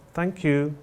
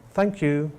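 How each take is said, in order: The two takes are said the same way.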